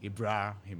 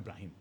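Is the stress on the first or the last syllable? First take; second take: first; last. First: The stress is on the first syllables, Ibra. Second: The stress is on the last syllable, him. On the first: The speaker calls it right. "emphasizes on the Ibra. It's actually yes" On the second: The speaker calls it wrong. "It's not Ibrahim"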